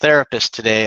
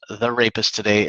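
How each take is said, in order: First: It is said as the single word 'therapist'. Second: It is split into 'the' plus 'rapist'. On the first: The speaker calls it right. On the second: The speaker calls it wrong. "don't mispronounce it wrong. It's not"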